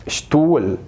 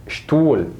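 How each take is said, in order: Both takes have the same delivery.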